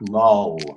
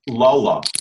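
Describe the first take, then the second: First: The word ends on the L, with no vowel. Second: The word ends with an added uh vowel. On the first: The speaker calls it right. "So it's lull" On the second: The speaker calls it wrong. "You almost say lulla, but you don't say the last"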